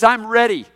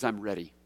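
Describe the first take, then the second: First: "I'm ready." said higher and loud, firmly declared; emphatic declaration. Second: "I'm ready." said lower and soft, settled; quiet resolve. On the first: Pastor proclaiming Paul's resolve, loud and firm. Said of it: "Look at what he says". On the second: Pastor echoing Paul's resolve, low and soft. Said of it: "He says". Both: Shown as a demonstration.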